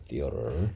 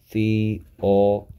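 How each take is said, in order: First: Said in the usual way. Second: "theater" slowly split into separate sounds; "theater" sounded out slowly for learners; syllable by syllable. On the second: Shown as a demonstration. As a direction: draw out each part of "theater". Teacher breaking the word into syllables.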